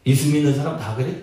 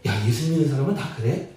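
First: Sarcastic, dismissive question; mildly scornful, low-pitched question; sneering. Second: Low, soft, quick admiring question; mildly impressed wondering. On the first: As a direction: ask it as a jeer. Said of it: "이것은 좀 비아냥거리는 거". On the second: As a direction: ask in quiet admiration. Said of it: "선한 영향력을 끼치고 있다라는". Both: Shown as a demonstration.

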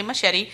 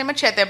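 First: "machete" as muh-SHEH-tee; anglicised pronunciation. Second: "machete" as mah-CHEH-teh; Spanish-style pronunciation. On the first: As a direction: say "machete" with a sh sound and a final ee. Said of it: "some people might say machete". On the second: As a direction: say "machete" with a ch sound and a final eh. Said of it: "I'm gonna say machete". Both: Shown as a demonstration.

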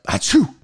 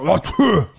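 First: Quick mock sneeze; a plain, short fake sneeze; imitated sneeze. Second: Imitated explosive sneeze; big, throaty mock sneeze; violent sneeze. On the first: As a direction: act out a simple achoo. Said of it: "I just hear him sneeze". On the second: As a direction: exaggerate a violent achoo. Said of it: "it was like a violent sneeze".

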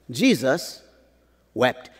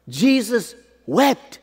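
First: Slow with a pause between "Jesus" and "wept"; a slow pause before "wept". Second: "Jesus wept" said high and slow, rising on "wept"; high slow repeat. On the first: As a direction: let "Jesus" hang, then drop "wept". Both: Shown as a demonstration.

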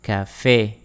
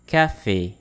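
First: Café modelled carefully, falling onto a closed é; careful pronunciation model. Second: Café a touch quicker, falling on é; a little faster. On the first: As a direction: say Café for learners to repeat. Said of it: "practice how to pronounce these words". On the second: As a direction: say Café slightly more briskly. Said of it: "This time a little faster". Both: Shown as a demonstration.

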